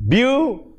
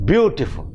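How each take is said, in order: First: "beautiful" in three beats, beau, ti, ful, with gaps; syllable by syllable. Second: Said in the usual way. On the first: Shown as a demonstration. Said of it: "three syllables in it". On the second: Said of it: "when you utter the word beautiful".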